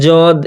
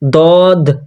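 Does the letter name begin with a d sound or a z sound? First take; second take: z sound; d sound. First: It begins with a z-like sound. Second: It begins with a plain d sound. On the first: "যদ যদ এইভাবে হবে না" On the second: "দদ দাল দিয়ে, হ্যাঁ, দদ এটাও পড়া যাবে না"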